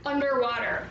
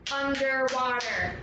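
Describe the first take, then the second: First: Said in the usual way. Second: "Underwater" in four even beats; syllable by syllable. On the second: Shown as a demonstration. Teacher counts four syllables, syllable by syllable. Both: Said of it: "Four syllables".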